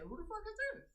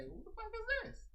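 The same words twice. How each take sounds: First: High, disbelieving question with a rise; incredulous inner voice. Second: High, disbelieving question; incredulous inner voice. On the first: Streamer voicing her thought in her head, high and disbelieving. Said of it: "I say it in my head". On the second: Streamer voicing her own thought about a newcomer, high and incredulous. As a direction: squeak it out in disbelief. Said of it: "Same thing I say". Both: Retold or imitated.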